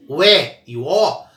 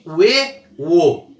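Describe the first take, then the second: First: "E" and "O" open, as é and ó; open vowels. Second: "E" and "O" closed, as ê and ô; closed vowels. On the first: Teacher contrasting vowels for students, open E and O. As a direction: open the mouth wide on E and O. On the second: Teacher contrasting vowels for students, closed E and O. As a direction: close the mouth on E and O. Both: Shown as a demonstration. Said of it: "vogal aberta e vogal fechada".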